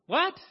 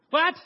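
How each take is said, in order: First: "What?" much higher and louder, incredulous; disbelieving. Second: A startled first what; shocked. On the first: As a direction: shriek "What?" in horror. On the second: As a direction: blurt it in shock. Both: Acted. Jack shocked by God's order.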